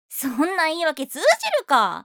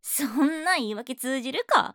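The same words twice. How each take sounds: First: The voice is projected very loudly. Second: The voice is projected less loudly. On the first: The speaker calls it wrong. "声張りすぎてるから" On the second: The speaker calls it right. "さっきのよりも今の感じだね"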